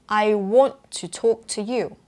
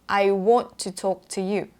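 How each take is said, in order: No difference in how they are said.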